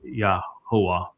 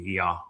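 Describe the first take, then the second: First: The name is said with three syllables. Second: The name is said with two syllables. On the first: The speaker calls it wrong. "that is incorrect" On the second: The speaker calls it right. "So it'd be Yahweh"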